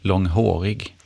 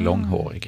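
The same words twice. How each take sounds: First: The main stress falls on the later syllable. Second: The main stress falls on the first syllable. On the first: The speaker calls it wrong. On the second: The speaker calls it right.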